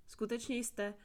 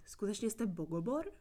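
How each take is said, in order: First: "Skutečně jste" trailing off on a falling tune, cut short; breaking off mid-question. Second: "Skutečně jste Bogobor?" asked in full, rising on "Bogobor"; daring to ask. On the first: Prisoner hesitating to ask the stranger, breaking off. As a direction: stop yourself after "jste". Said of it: "na okamžik se zarazila". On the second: Prisoner finally asks the stranger his name, rising question. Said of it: "než se to odhodlala vyslovit". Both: Acted.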